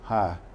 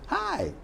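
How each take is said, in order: First: It sounds deflated, with the energy dropping. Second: It sounds upbeat, with the energy lifting.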